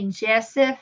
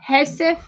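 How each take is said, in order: First: The name starts with a hard J sound. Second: The name starts with a soft H sound. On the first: The speaker calls it wrong. "you wouldn't say it in the English with a hard J" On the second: The speaker calls it right. "in the Latin languages you would say a soft"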